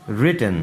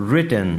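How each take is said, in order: Both takes have the same delivery.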